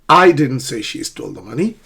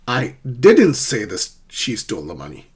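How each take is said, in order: First: The stress falls on the word I. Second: The stress falls on the word didn't.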